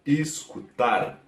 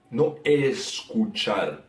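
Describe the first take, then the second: First: "escutar" slowly, with an i-like first vowel and a dull u; Portuguese escutar. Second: "escuchar" with a Spanish ch and open vowels, slow. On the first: Teacher modelling the Portuguese word, slow and careful. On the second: Teacher contrasting the Spanish word, slow and low. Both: Shown as a demonstration. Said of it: "se queda como escutar".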